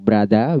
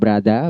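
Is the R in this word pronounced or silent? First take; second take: silent; silent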